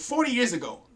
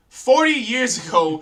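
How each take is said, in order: First: Said in the usual way. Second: "forty years ago" slower and louder, FORTY punched; emphatic slow repeat. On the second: Real, not acted. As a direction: lean hard on "forty" and stretch the phrase.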